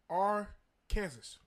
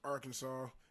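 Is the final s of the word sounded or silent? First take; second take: sounded; silent. First: The word is said as spelled, final s sounded. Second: The word is said with the final s silent. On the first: The speaker calls it wrong. "It's spelled Arkansas" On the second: The speaker calls it right. "Shit's pronounced Arkansas"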